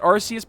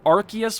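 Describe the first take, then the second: First: The first syllable has no hard k sound. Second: The first syllable starts with a hard k sound. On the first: "I've always pronounced it Arceus" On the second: "Arceus would make sense because it's like archaic"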